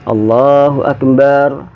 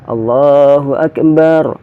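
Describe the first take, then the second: The two takes are said the same way.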